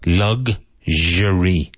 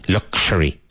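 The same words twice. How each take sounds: First: The middle consonant is a zh sound. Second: The middle consonant is not a zh sound. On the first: The speaker calls it right. "You've got that strange zh" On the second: The speaker calls it wrong. "it's not luxury"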